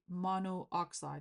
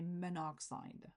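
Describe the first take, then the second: First: Both vowels are said, mono then oxide. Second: The O is dropped, blended into one word. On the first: "you don't need to say" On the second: "you can drop the A or even the O of the prefix"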